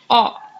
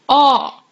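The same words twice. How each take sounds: First: The vowel is short. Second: The vowel is held long. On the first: "We had aw there" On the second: "little longer pronunciation of aw into aw"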